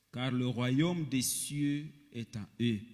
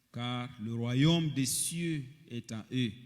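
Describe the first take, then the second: No difference in how they are said.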